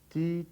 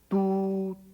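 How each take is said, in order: First: The vowel sounds close to an i sound. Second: The vowel is a rounded Portuguese u sound. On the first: The syllable is read as it was written in French. The speaker calls it right. "Tu, em francês, seria mais ti" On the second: The syllable is read as if it were Portuguese. The speaker calls it wrong. "Não, errado"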